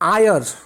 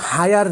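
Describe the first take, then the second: First: The word starts with a vowel sound. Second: The word starts with an h sound. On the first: The speaker calls it right. "এই শব্দটাকে আমরা উচ্চারণ করি আয়ার" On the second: The speaker calls it wrong. "H E I আর শব্দটা কিন্তু হায়ার না"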